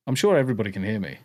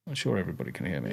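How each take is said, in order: First: Said in the usual way. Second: Soft quick repeat; quieter fast repeat. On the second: Shown as a demonstration. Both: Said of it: "audio cut out".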